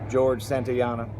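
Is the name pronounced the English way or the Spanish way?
English. The name is pronounced the English way.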